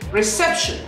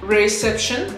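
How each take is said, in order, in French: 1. Il est prononcé avec une syllabe nettement accentuée. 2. Il est prononcé à plat, sans aucune syllabe accentuée. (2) "au lieu de dire reception, non"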